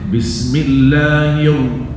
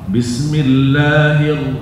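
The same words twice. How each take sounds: First: The final r is made with rounded lips. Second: The final r is made without rounded lips. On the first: The speaker calls it wrong. "Tidak boleh... tidak ada hubungan sama bibir" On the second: The speaker calls it right. "langsung sambung kepada ra"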